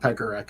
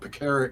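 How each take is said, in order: First: The stress is on the first syllable. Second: The stress is on the second syllable. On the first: The speaker calls it wrong. "people saying Pekarek is is wrong" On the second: The speaker calls it right. "the second syllable is emphasized"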